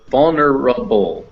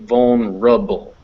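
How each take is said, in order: First: The word is said with four syllables. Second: The word is said with three syllables. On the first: "We're going to include that E in there" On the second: "if the schwa goes, this R attaches to this schwa over here"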